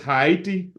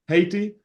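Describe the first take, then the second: First: It is said mimicking another speaker's unusual pronunciation. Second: It is said with an ordinary pronunciation.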